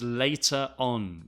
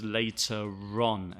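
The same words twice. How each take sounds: First: Said in the usual way. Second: "later on" with R carried onto "on"; linking R. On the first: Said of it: "He also uses later on". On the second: Shown as a demonstration. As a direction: run "later on" together as "later-ron". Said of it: "with the R at the beginning of on".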